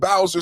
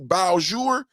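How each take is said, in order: First: The name is said with an English-style pronunciation. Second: The name is said with a French-style pronunciation. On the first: The speaker calls it wrong. "Yesterday I was saying Bowser City" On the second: The speaker calls it right. "They said it's Beaujour because, you know, it's French down there"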